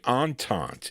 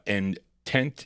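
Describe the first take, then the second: First: It is said like the French word entente. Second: It is said like the English word intent. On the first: The speaker calls it right. "Entente is how you pronounce that" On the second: The speaker calls it wrong. "I'm sorry"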